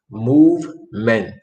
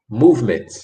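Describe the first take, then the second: First: "Movement" slowly broken into move and ment; syllable by syllable. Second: Said in the usual way. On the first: Shown as a demonstration. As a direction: leave a clear gap inside "Movement", sounding the final t. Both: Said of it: "That word is pronounced".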